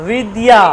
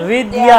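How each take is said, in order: Both takes have the same delivery.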